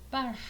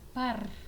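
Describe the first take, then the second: First: The final r is voiceless. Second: The final r is voiced. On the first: The speaker calls it right. "la pronunciación correcta es par" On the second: The speaker calls it wrong. "Usualmente pronuncian par"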